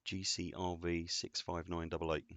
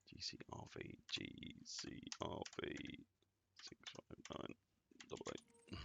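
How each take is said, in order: First: Said in the usual way. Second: Barely audible breathy whisper of the code. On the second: Real, not acted. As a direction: whisper each letter and number while typing. Repeats code while typing it.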